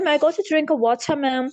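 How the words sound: It is said in a British accent. "UK की मैं बात करूं, ब्रिटेन की, तो वो पढ़ते हैं"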